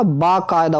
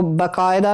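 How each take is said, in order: First: "बाकायदा" with long "baa"; long first vowel. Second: "बाकायदा" with short "ba"; short first vowel. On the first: Teacher giving students the correction, बाकायदा with long "baa". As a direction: say बाकायदा as "baakaayda". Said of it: "बा हो गए". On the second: Teacher showing students the mistake, बाकायदा with short "ba". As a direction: say बाकायदा as "bakaayda". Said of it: "बाकायदा नहीं होता". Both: Shown as a demonstration.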